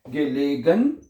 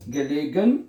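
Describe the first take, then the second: No difference in how they are said.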